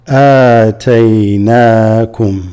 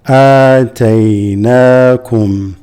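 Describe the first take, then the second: The two takes are said the same way.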